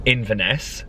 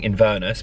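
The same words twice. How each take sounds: First: "Inverness" with weak middle, clear final NESS; Inverness, reduced middle. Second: "Inverness" as in-VER-nuss; full VER, swallowed last syllable in "Inverness"; mispronounced Inverness. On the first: Naming the next trip, "Inverness" said in-vuh-NESS. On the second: Mocking own slip, "Inverness" said in-VER-nuss. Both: Shown as a demonstration. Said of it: "which I keep saying Inverness".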